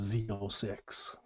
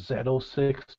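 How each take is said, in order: First: The letter is pronounced as zee. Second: The letter is pronounced as zed. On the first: The speaker calls it wrong. "not a" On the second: The speaker calls it right. "I call it a"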